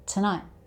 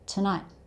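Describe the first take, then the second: Both takes have the same delivery.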